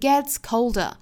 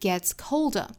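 First: The stress falls on gets. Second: The stress falls on colder. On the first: The speaker calls it wrong. "不是 gets colder" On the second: The speaker calls it right. "要选择在后面这个词重读"

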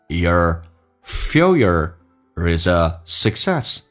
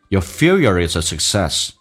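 First: The sentence is said at a slower pace. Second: The sentence is said at a faster pace.

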